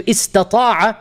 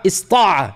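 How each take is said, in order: First: Istata'a with every syllable, the ta fully said; full form. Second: Ista'a with the middle ta dropped; shortened form. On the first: Teacher showing students the full verb, slow and careful. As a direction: spell out istata'a slowly, sounding the middle ta. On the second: Teacher showing students the contracted verb, short and clipped. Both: Shown as a demonstration. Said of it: "You're allowed to say this".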